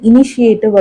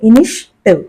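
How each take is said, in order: First: It is said in an Indian English style. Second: It is said in a native English style. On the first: "இனிஷியேட்டிவ் அப்படின்னு சொல்றது நம்மளோட Indian style" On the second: "native speakers பார்த்தோம் அப்படின்னா இனிஷிட்டிவ் அப்படிம்பாங்க"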